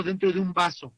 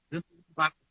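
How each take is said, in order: First: Said in the usual way. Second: Muffled, as if talking inside a glass; into a cup. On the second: Shown as a demonstration. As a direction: speak the words into a cup. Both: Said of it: "pareciera que alguien está hablando dentro de un vaso".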